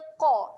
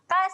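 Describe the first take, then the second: First: The consonant is heavy, made deep in the throat. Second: The consonant is light, made further forward. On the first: The speaker calls it right. "huruf yang tebal. Jadi bunyi dia qa" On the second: The speaker calls it wrong. "Ka salah eh"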